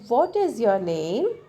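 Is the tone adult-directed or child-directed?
child-directed. It is said in a softer, gentle, childlike tone. The listener is a young child. "if I talk her younger brother"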